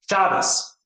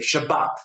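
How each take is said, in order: First: The stress is on the first syllable. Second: The stress is on the last syllable.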